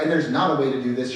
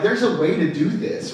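First: Not hit harder, rest kept even; stress on not. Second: Said in the usual way. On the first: Shown as a demonstration. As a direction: lean on the word not.

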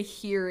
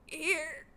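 First: Said in the usual way. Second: "Here." squeaked high and thin, breaking into a laugh; lost voice croak. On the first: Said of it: "I can't even say". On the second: Shown as a demonstration. Sick student answering roll call with no voice, squeaky and laughing. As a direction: mimic a voice that's gone, squeaking out "Here.". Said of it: "my voice is gone".

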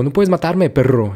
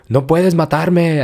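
First: Higher mock yell; retold yell with insult. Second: Mock yell, drawn out; slow mock shout of defiance; retold yell. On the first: Woman shouts at soldiers, mild mock yell. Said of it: "lo grita". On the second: Woman yells at the intruder, mild mock yell. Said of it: "pero le grita".

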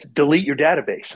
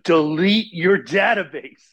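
First: Said in the usual way. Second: "Delete your database" slow and higher, each word weighted; "Delete your database" drawn out with heavy stress; emphatic repeated command. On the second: Retold or imitated. God repeats command after "What?.

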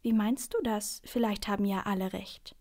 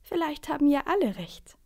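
First: Said in the usual way. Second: High, louder voice chiming in; mysterious newcomer. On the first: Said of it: "bevor ihr etwas einfällt". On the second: A narrator's reading. Someone suddenly interrupting the seat quarrel, lifted voice. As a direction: cut in with a lifted suggestion. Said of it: "sagt da plötzlich jemand".

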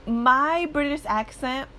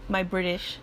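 First: Put-on a slow, lightly British-accented "My British accent", pitched higher; a hint of mock British on "My British accent"; fake British accent. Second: Said in the usual way. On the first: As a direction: say "My British accent" in a brief jokey British accent, drawn out. Slips into accent mid-sentence.

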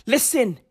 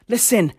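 No difference in how they are said.

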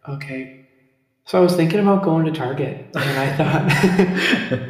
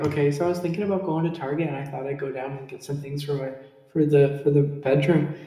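First: Overdone North Dakota accent, stretched out; too strong North Dakota accent. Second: Fast, light North Dakota accent; a quicker, milder North Dakota accent. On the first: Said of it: "let me be like". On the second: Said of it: "You'd be like". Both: Shown as a demonstration.

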